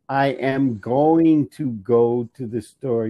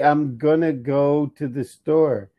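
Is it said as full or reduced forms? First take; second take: full; reduced. First: It uses the full forms I am and going to. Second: It uses the reduced forms I'm and gonna. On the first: This is the written form. "if you're writing it, you're gonna say it" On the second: This is casual spoken language. "you can say I'm gonna go to the store"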